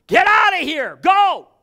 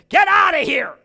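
First: High, loud shout; full-voiced shout; shouted command. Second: High, loud shout; furious shout at the little dog; yelled command. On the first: Shown as a demonstration. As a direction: bark it at the enemy. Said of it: "You gotta do that sometimes". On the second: Retold or imitated. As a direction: yell it to send the dog away. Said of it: "stamped her foot down and yelled".

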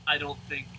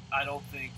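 Both takes have the same delivery.

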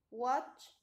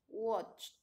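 First: Said in the usual way. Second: "watched" with ED as a bare T; final T sound. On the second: Shown as a demonstration. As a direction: say "watched" as watcht, one syllable. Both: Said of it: "pronunciamos la T".

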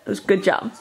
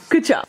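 First: Said in the usual way. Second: Bright praise. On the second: Shown as a demonstration.

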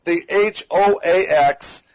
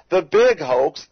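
First: H O A X spelled slowly, one letter at a time. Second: Said in the usual way. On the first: Shown as a demonstration. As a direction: spell out H O A X for emphasis. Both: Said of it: "capital letters".

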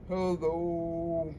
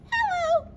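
First: Deep, soft, low hello. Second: Squeaky hello way up high. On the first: Librarian leads the kids' low hello, deep and soft. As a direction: drop your voice down low. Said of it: "Let's say hello as low as we can". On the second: Librarian leads the kids' high hello, squeaky high. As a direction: go as high as your voice goes. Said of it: "Let's say hello as high as we can". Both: Shown as a demonstration.

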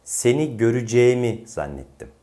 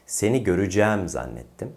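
First: "göreceğimi" as gö-rü-ce-mi; closed e. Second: "göreceğim" as gö-rü-cæm with wide æ; open e. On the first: Teacher adds the suffix, "göreceğimi" with closed e. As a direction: narrow the e before mi in "göreceğimi". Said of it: "Bir i getirelim". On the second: Teacher contrasts with suffix, "göreceğim" with open æ. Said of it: "kelimenin söylenişi değişir". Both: Shown as a demonstration.

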